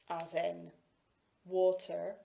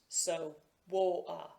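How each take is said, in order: First: The middle t is a clear aspirated t. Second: The middle t is replaced by a glottal stop. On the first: "this is known as an aspirated T consonant" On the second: "a glottal stop, where the sound is actually stopped"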